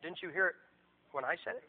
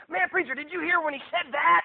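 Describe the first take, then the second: First: Lower, softer aside; wounded pastor thinking to himself; quiet, let-down question under the breath; deflated private thought. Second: High, loud, excited question; mock-amazed congregant, pitched up; gushing church member. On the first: Retold or imitated. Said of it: "And I thought". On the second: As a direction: imitate a thrilled churchgoer marveling at a sermon. Gushing member, against pastor's own thought.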